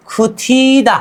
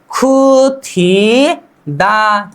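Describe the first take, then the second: First: Said in the usual way. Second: खुथी दा split apart and drawn out very slowly; slow syllable demo. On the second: Shown as a demonstration. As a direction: break खुथी दा into parts for the class. (खुथी दा को टुकड़ों में बहुत धीरे बोलें) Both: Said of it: "क्या?".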